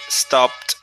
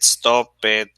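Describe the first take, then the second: First: The ending is said as a single t sound. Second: The ending is said as an extra syllable. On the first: The speaker calls it right. "the right pronunciation" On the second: The speaker calls it wrong. "you don't say"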